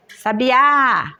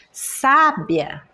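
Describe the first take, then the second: First: "Sabiá" with the final Á stressed and held; stress on last syllable. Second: "Sábia" with SÁ stressed and drawn out; stress on first syllable. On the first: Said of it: "é a última sílaba". ("Sabiá" com a última sílaba bem forte) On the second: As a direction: hit the first syllable of "Sábia", let the rest fall. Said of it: "a primeira sílaba". ("Sábia" com a primeira sílaba bem forte) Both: Shown as a demonstration.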